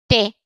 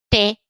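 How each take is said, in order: The two takes are said the same way.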